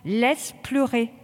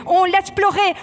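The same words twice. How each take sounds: First: Soothing. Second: Loud, high drill order; barked command. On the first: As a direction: let it go, gently reassuring. Instructor calms a choking recruit. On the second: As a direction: bark it at the recruits in the gas. Instructor barks during gas drill. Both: Real, not acted.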